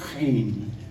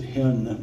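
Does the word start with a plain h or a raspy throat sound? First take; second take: raspy sound; plain h. First: It starts with a raspy throat sound. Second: It starts with a plain, soft h sound. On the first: The speaker calls it right. "but it's chen" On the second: The speaker calls it wrong. "Everybody wants it to be H E N, they pronounce it hen"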